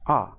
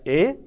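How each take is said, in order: First: The word is said plainly, without emphasis. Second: The word is said with strong emphasis. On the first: "but in normal cases we use it as a" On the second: "in this case we pronounce this letter or this alphabet as a"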